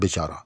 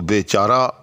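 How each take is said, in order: First: The first vowel is clipped short. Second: The first vowel is drawn out long. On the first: "सिर्फ बे, उसके साथ जो बड़ी ये है उसको मुकम्मल तौर पर जो है हज़फ कर दिया जाता है" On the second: "बिल्कुल बे को खींच कर"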